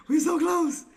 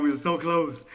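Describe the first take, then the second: First: Very high, whiny squeal; high-pitched lament. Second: Said in the usual way. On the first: Real, not acted. Trader bemoaning the near miss, high-pitched whine. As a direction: wail it way up high. Repeats lament far higher.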